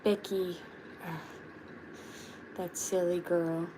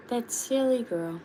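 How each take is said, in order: First: Lightly voiced turtle with a mock exasperated sigh; understated fond grumble about Becky; a hint of a turtle tutting over a friend; Chip voice. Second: Said in the usual way. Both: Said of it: "I did the Chip voice".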